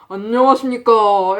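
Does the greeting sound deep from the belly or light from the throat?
belly. The voice is deep, coming from the belly. "목소리가 아니고 저 밑에 단전에서부터 이렇게 올라오는"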